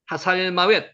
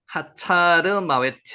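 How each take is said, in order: First: The name is said as Hasalmawet. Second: The name is said as Hachar Mawet.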